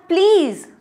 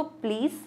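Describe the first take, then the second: First: "please" higher, louder, falling hard; raised fed-up please; exasperated please. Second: "please" much softer, rising; soft please. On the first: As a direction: beg to be spared. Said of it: "एक आप बोल रहे हो". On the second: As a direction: ask gently. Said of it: "एक आप please बोलते हो". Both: Shown as a demonstration.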